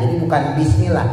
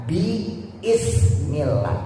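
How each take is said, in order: First: Said in the usual way. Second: "bi ... ismillah" with a pause after bi, slow; "bi" then "ismillah" drawn out slowly as two words; split bi ismillah. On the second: Shown as a demonstration. Teacher spelling out "bi ismillah" slowly to students. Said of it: "Tulisan aslinya".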